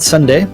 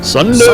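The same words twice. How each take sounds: First: It is said in a plain, ordinary voice. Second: It is said in a loud, hyped announcer voice. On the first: The speaker calls it wrong. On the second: The speaker calls it right.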